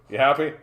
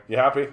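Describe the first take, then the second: No difference in how they are said.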